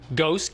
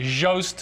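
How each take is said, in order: First: The word starts with a hard G sound. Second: The word starts with a soft J sound. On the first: The speaker calls it right. "Think ghost" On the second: The speaker calls it wrong. "So I shouldn't say Jost"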